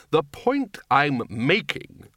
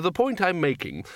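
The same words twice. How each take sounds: First: Very slow, stalling repeat; drawn-out, deliberate stall; trying to remember. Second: Higher-pitched, hurried first attempt; acted fluster, searching for the argument; losing the thread. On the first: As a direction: stretch the words while groping for the thought. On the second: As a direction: stumble towards your point. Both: A narrator's reading. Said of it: "trying to remember".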